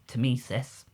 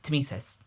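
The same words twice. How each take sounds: First: The word is said slowly, syllable by syllable. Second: The word is said quickly, syllables run together. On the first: "the way I remember to pronounce it is Temesis because of to me to you" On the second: "if you say it fast enough, it's Temesis"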